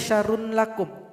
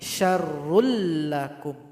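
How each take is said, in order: First: The n is pronounced separately before the l. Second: The n merges fully into a doubled l. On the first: The speaker calls it wrong. "Enggak boleh syarrun lakum" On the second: The speaker calls it right. "tapi syarrul lakum"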